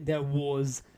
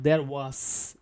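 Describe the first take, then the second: First: The word 'was' ends with a z sound. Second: The word 'was' ends with an s sound. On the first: The speaker calls it right. "it will take sound like this one, like zoo" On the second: The speaker calls it wrong. "not there was"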